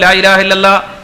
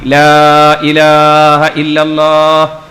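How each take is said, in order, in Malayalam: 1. വേഗത്തിലും തിടുക്കത്തോടെയുമാണ് ചൊല്ലുന്നത്. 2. സാവധാനത്തിലും മൃദുവായും, തിടുക്കമില്ലാതെയാണ് ചൊല്ലുന്നത്. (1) "വേഗം ഇന്നോളൂ എന്ന് പറയണ പോലെ അല്ല ലാ ഇലാഹ ഇല്ലല്ലാഹ് പറയേണ്ടത്" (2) "വെറുതെ അങ്ങനെ പറഞ്ഞാൽ മതി"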